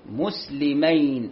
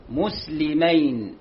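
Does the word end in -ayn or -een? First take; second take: -ayn; -ayn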